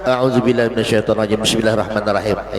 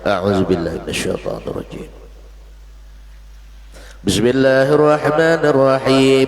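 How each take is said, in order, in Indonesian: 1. Bismillah langsung diikuti tanpa jeda. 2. Ada jeda singkat sebelum bismillah. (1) "jangan dilangsungkan ... Itu makruh" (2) "Berdiam satu mat saja"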